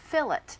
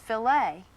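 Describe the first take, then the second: First: The word is pronounced the English way. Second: The word is pronounced the French way. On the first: It refers to fish. "The word that we use in describing fish" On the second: It refers to meat. "the French word F I L E T, it's pronounced filet"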